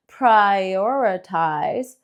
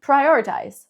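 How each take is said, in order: First: "prioritize" stretched very long, every sound held; very slow stretch. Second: "Prioritize" said short, light and natural, soft t; quick, smooth "Prioritize"; nice and soft. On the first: Teacher exaggerating length for learners, very slow. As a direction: drag "prioritize" out as long as possible. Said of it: "Lo alargamos". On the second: Teacher giving the compact natural version, soft. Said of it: "it's nice and soft". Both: Shown as a demonstration.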